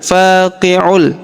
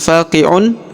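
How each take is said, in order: First: The final n merges into an l sound. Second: The final n is pronounced clearly as n. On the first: The speaker calls it right. "Jadi dibaca faqi'ul" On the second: The speaker calls it wrong. "bukan faqi'un"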